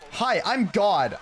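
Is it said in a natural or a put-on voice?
natural. It is said in his natural voice.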